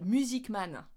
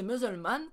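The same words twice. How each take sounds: First: "music man" as two clear English words; misheard version. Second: "musulman" in three syllables, English-style; mistaken pronunciation. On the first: What the colleague understood, "music man" said clearly. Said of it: "elle comprenait". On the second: Learner repeating what she said, botched English "musulman". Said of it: "Donc je disais". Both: Retold or imitated.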